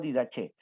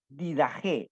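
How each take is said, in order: First: The middle consonant is a 'ch' sound. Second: The middle consonant is a throaty 'h' sound. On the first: This is the English pronunciation. The speaker calls it wrong. "no Didache" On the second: This is the Spanish pronunciation. The speaker calls it right. "del hebreo al español se debe pronunciar Didaje"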